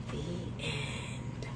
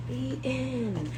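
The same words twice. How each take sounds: First: Soft, whispered close; hushed ending. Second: Said in the usual way. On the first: Shown as a demonstration. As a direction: breathe out the ending.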